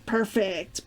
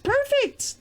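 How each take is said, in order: First: Said in the usual way. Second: Much higher, bright sing-song squeak; playful squeal. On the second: Pretend. Checking the mic again, a jokey high squeal.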